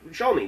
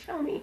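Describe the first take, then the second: First: It is said in his ordinary voice. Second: It is said in a put-on flamboyant voice.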